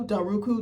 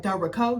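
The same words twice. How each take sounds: First: "Del Roku" said as del ROH-koo, like the streaming stick; botched name. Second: Said in the usual way. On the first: Retold or imitated. Imitating the announcer who butchered her last name, "Del Roku". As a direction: say "Del Roku" with a long oo ending instead of Rocco. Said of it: "And it was like". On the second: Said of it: "our last name is Del Rocco".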